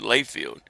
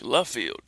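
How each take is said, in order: First: The first syllable sounds like 'lay'. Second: The first syllable sounds like 'luh'. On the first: This is how others say the name. The speaker calls it wrong. "pronounced differently" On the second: This is the French way the family says it. The speaker calls it right. "It's French"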